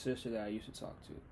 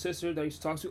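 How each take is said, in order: First: It is spoken more slowly. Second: It is spoken very quickly. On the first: "But I'll say it slower" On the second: "I know I sounded like [name] when I just said all that"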